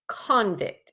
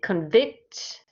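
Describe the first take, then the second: First: The stress is on the first syllable. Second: The stress is on the second syllable. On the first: It is used as a noun. "I put the stress on the C O N part" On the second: It is used as a verb. "he stressed the second"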